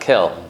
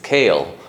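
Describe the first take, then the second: First: The vowel is a short, quick 'eh' sound. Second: The vowel is a drawn-out 'ay' sound. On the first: The speaker calls it wrong. "It's not Kel. The person says Kel, and he says it quickly" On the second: The speaker calls it right. "make sure he's Madgish the Tzeire, it's Kael"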